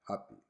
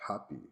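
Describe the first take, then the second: First: The word starts with a p sound. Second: The word starts with a p sound.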